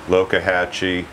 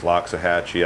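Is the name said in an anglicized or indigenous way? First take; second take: indigenous; anglicized. First: The name is said in an indigenous way. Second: The name is said in an anglicized way.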